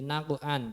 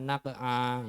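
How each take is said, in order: First: The word ends with an n sound. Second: The word ends on a vowel without n. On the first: The word is read as written, without pausing. The speaker calls it right. "Dibaca sesuai dengan tulisannya dulu, nggih. Jangan dibaca wakof dulu ya" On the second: The word is read in its pause form. The speaker calls it wrong. "jangan naq'a ya"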